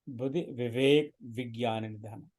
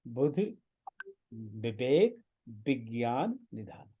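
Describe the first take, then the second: First: Vivek and vigyan begin with a v sound. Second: Vivek and vigyan begin with a b sound. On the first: The words are corrected to their standard form. The speaker calls it wrong. "ऐसा हम नहीं पढ़ेंगे" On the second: The words are read exactly as written in the text. The speaker calls it right. "पर हम इसको यही पढ़ेंगे"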